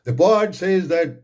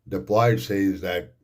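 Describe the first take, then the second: First: It is declaimed loudly, like giving a speech. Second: It is read in a quiet, flat voice. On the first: The speaker calls it right. "जैसे आप तकरीर कर रहे हैं" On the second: The speaker calls it wrong. "ऐसे नहीं करना है"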